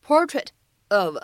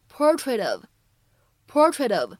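First: Said in the usual way. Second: "portrait of" joined, final t as a quick flap; linking with flap T. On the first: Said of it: "这样的两个单词呢". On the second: Shown as a demonstration. Teacher showing American flap T, "portrait of" linked with tapped t. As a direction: link "portrait of", tapping the t lightly. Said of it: "还会形成一个flap T".

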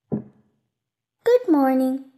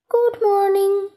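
First: Plain-pitched, drawn-out greeting; slow hello in the narrator's own register; little prince greeting. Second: Higher, sustained sing-song greeting; roses' voice. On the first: Little prince greets the garden of roses, slow greeting. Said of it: "he said". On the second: Roses answer the little prince, high lilting greeting. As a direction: lift it up and hold it level, as talking flowers. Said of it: "said the roses". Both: A narrator's reading.

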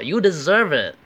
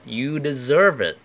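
First: High, loud taunt with swooping pitch; mock "serves you right". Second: Higher, louder "well earned" delivery; approving praise. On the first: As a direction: jeer like a gloating classmate. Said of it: "你是活该". (模仿同学幸灾乐祸地说“活该”) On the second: Acted. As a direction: praise someone who studied hard. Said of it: "你是应得的". (称赞对方应得，语调上扬)

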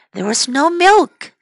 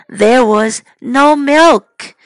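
First: Said in the usual way. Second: "no" stressed, slow and loud; slow emphasis. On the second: Shown as a demonstration. Teacher modelling the sentence for children, emphatic. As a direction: lean on "no" slowly.

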